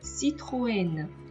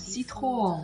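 First: The o and e are sounded as separate vowels. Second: The ending merges into one nasal vowel sound. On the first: The speaker calls it right. "分解来读" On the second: The speaker calls it wrong. "我们不能把它读成Citroën啊"

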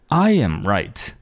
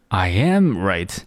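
First: The stress is on the word I. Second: The stress is on the word am. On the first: "第一种哒哒哒I am right" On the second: "第二种哒哒哒I am right"

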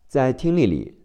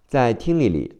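Both takes have the same delivery.

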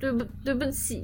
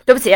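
First: It sounds pleading, begging to be forgiven. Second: It sounds defiant and not sorry at all.

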